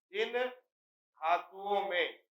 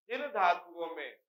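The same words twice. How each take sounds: First: जिन held apart from a stretched धातुओं में; slow dictation. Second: Said in the usual way. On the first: Shown as a demonstration. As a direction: draw out जिन, pause, then धातुओं में slowly. Repeats slowly for note-taking.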